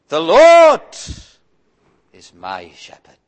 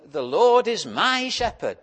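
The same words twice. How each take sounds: First: The stress is on "Lord". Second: The stress is on "my".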